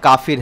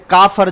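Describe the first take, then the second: First: The second syllable has an 'i' vowel. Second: The second syllable has an 'a' vowel. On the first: This is the original form by the rule. "जो असल में काफिर है" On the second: This is the common popular form. "इसी तरीके से काफर"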